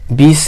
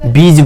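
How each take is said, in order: First: The word ends with a hissing s sound. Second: The word ends with a buzzing z sound. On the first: The speaker calls it wrong. "बीस नहीं बोलेंगे" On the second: The speaker calls it right. "बीज बोलेंगे"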